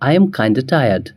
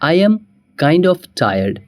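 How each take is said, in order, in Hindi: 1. 'kind of' छोटा होकर 'kinda' बन जाता है। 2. 'kind of' पूरा बोला जाता है।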